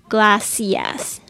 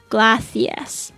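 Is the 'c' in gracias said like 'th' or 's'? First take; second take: s; th. First: Latin American accent, the c sounds like 's'. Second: Spain accent, the c sounds like 'th'.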